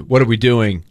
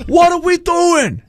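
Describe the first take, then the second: First: Said in the usual way. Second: Slow, much higher hammed-up New York accent; exaggerated New York accent, drawn out. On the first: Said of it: "like, you could say". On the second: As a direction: drag each word out like a cartoon New Yorker. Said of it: "I'm thinking of New York".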